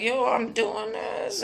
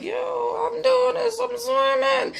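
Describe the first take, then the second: First: Slow, soft, marveling voice; amazed Peter. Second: Put-on very high, slow, astonished child voice; amazed little girl. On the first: Retold or imitated. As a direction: breathe it out in quiet wonder. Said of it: "he was like". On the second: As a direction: squeal it like a kid surprised at herself. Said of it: "she started to shock herself".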